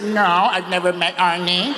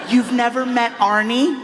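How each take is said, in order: First: Said in the usual way. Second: Higher-pitched questioning voice, rising on "Arnie?". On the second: Retold or imitated. Woman asking the comedian about meeting the star, questioning. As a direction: ask "You've never met Arnie?" in a raised pitch. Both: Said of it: "I said".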